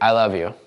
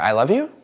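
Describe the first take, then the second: First: The pitch drops down like a command. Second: The pitch rises at the end like a question.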